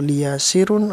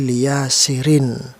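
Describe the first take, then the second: First: The word ends in an un sound. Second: The word ends in an in sound. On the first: The speaker calls it wrong. "atau liyasirun" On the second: The speaker calls it right. "kasroh tanwinnya harus terdengar"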